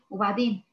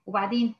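Both takes have the same delivery.

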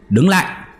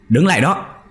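First: Even higher, final rising shout; shouted order, pitched up. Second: High, ringing shout to stop; shouted order. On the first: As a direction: yell it after the fleeing shadow. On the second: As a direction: order him to halt, much higher. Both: A narrator's reading. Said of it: "liền quát lên".

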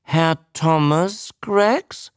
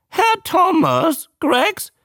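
First: Slow, raised questioning prompt; drawn-out name, rising at the end; teaching the name. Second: Very high, slow squawk; drawn-out high creature question; newt repeating. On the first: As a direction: sound it out slowly for a pupil. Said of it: "versuchte er es". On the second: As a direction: parrot the name back in newt voice. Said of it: "wiederholte der Molch". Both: A narrator's reading.

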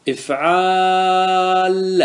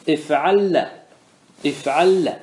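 First: افعال with a very long, level held aa before the doubled lam; alif inserted, drawn out. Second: افعل with a short a going straight into the doubled lam; alif removed. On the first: Teacher shows students the inserted alif, hugely stretched aa in افعال. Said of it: "أدخل الألف، إيش تقول؟". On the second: Teacher shows it without alif, short vowel and doubled lam in افعل. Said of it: "احذف الألف". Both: Shown as a demonstration.

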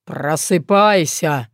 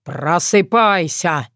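First: Deep, slow booming orc voice; orc bass shout. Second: Orc bass shout. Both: A narrator's reading. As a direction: bellow it like a green giant. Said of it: "Громко прозвучал бас орка".

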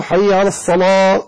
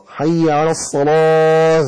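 First: Slow call with الصلاة ending on an open "aa"; dropped final ha. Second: Very slow chant, الصلاة ending in an audible h; drawn-out الصلاة with its final h released; sounded final ha. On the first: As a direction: end الصلاة as "salaa", with no h. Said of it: "ومن ترك النطق بالهاء". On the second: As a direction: breathe out the h closing الصلاة, "salaaah". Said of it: "أخرج الهاء". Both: Shown as a demonstration.

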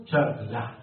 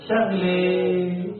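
First: Egyptian "شغلة" ending in a short open "-ah"; plain Egyptian "shaghlah"; Egyptian accent. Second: Syrian "شغلة" with a high, long drawn-out "-eh" ending; exaggerated Syrian drawl; Syrian accent. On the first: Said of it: "لو كنت تنطق نطقا مصريا تقول". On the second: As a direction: stretch the end of "شغلة" high, Syrian style. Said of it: "قلت لكم باللغة السوري هذا اسمها". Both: Shown as a demonstration.

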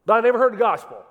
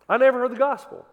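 First: Loud, fast mock protest; mock shout. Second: Loud, high mock protest; mock shout. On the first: Preacher shouting a skeptic's complaint, loud. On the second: Preacher repeating a skeptic's complaint, loud. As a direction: shout the complaint back at them.

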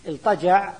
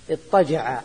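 First: الطجع said as iltaja', with a clear l before ط; vowelless lam. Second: اضطجع said as ittaja'a, with a doubled t. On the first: Teacher showing the other reading, الطجع with vowelless lam. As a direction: sound a still l in الطجع, no doubling. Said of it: "باللام الساكنة". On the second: Teacher showing students a merged reading, اضطجع with doubled ط. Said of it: "بالتشديد". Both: Shown as a demonstration.

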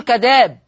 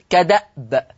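First: كداب with a long "aa" and no glottal catch; كداب as "ka-daab"; hamza replaced. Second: كدأب with a glottal catch before the final b; كدأب as "ka-da'b"; hamza kept. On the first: Acted. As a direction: run the vowel straight into the b in كداب. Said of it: "نبدل". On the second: Shown as a demonstration. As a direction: say كدأب slowly, stopping briefly on the hamza. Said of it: "أن الهمزة ساكنة".

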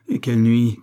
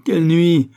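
First: A touch louder, still held back; first swell of anguish; pained exclamation. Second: High, loud exclamation; full-voiced, pained outburst; anguished outcry. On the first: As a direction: recall the torment with restrained force. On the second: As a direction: cry it out in torment. Exclamation repeated with more anguish. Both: A narrator's reading.

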